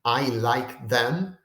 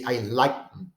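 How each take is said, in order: First: "I like them" slow, each word separate, "them" accented; full stress on them. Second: "I like them" with stress on "like", "them" reduced; them unstressed, combined. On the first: Teacher showing English students don't say, slow with them stressed. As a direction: give "them" its own full accent, slowly. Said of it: "instead of saying". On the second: Teacher giving everyday English example, them reduced onto like. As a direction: lean on "like" and swallow "them" into it. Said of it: "Where them gets combined". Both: Shown as a demonstration.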